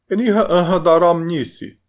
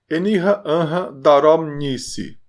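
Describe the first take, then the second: First: The phrase is read at normal pace. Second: The phrase is read at a slow pace. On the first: "Agora eu vou ler um pouco mais normal" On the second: "Vou ler primeiro mais lento"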